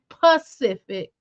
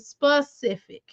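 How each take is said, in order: First: The word starts without an 's' sound. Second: The word starts with an 's' sound. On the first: The speaker calls it wrong. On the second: The speaker calls it right.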